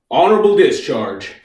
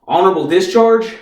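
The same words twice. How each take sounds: First: "Honorable discharge" stated with a falling end; flat announcement. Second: "Honorable discharge?" echoed with a lifted end; questioning echo. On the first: Officer tells the private his orders, "Honorable discharge" as a falling statement. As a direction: announce "Honorable discharge" as a settled fact, stressing "Honorable". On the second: Private queries his orders, "discharge?" lifted as a question. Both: Acted.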